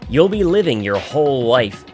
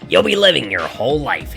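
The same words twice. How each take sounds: First: It is said in a plain narrating voice. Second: It is said in a put-on character voice. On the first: The speaker calls it wrong. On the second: The speaker calls it right.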